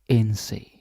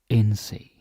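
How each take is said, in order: Both takes have the same delivery.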